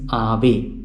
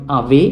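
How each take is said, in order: First: "Ave" as AH-vay, falling at the end; penultimate stress. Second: "Ave" as ah-VAY, rising on the end; misplaced final stress. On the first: Teacher corrects learners on the accent, "Ave" stressed AH-vay. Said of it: "it has got the accent". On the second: Teacher shows what it is not, "Ave" stressed ah-VAY. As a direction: push the accent onto the last syllable of "Ave". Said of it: "It is not Ave". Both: Shown as a demonstration.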